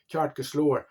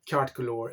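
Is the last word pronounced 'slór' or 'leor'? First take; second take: slór; leor. First: The last word sounds like 'slór', Scottish-like. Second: The last word sounds like 'leor', Irish-like.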